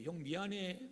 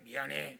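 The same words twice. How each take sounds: First: Soft, heartfelt sorry; sincere apology. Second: Low, perfunctory sorry; forced apology. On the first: Younger brother truly asking older brother's forgiveness, soft sincere apology. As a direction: apologize softly and mean it. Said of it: "이게 진짜 용서라는 거예요". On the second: Child apologizing on a parent's orders, low grudging apology. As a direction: say sorry only because you were told. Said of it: "이건 용서가 아니에요". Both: Acted.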